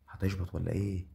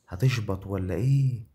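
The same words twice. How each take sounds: First: Said in the usual way. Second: Louder, slower, stretched out hype; rising yell of anticipation; loud excited yell. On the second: Real, not acted. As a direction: shout the question at the screen. Repeats louder, drawn out.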